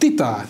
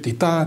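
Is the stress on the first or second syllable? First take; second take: first; second. First: The stress is on the first syllable. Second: The stress is on the second syllable. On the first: The stress works against the iambic beat. "elhelyezkednek fordítva is" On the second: The stress reinforces the rising iambic beat. "erősítik ezt a emelkedő lejtést"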